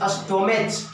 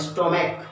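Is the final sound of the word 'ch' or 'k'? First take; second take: ch; k. First: The word ends with a 'ch' sound. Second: The word ends with a 'k' sound. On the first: The speaker calls it wrong. "स्टोमेच नहीं कहते हैं" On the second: The speaker calls it right. "स्टोमिक कहते हैं"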